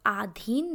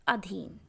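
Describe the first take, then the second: First: आधीन with a long first vowel, "aadheen"; wrong pronunciation. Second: अधीन with a short first vowel, "adheen"; correct pronunciation. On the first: Teacher shows the wrong form to avoid, a long "aa" in आधीन. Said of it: "आधीन नहीं बोलते हैं". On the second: Teacher gives the right form, a short "a" in अधीन. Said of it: "इसको बोलते हैं अधीन". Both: Shown as a demonstration.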